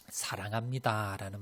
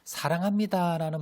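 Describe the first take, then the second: First: Said in the usual way. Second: Higher and louder, glowing with affection; 사랑합니다 lifted high and loud; loving emphasis. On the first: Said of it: "사랑합니다"라는". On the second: Shown as a demonstration. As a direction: sing out 사랑합니다 with feeling. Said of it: "말을 들으면 어때요?".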